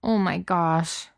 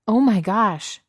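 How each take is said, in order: First: Slow, deflated lament; miserable. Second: Louder, higher startled cry; alarmed shout. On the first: Beast being laughed at by Cook, miserable. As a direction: groan it slowly, in misery. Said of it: "the beast said miserably". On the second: Stranger calling out to stop Cook touching the rose, alarmed shout. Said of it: "someone shouted". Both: A narrator's reading.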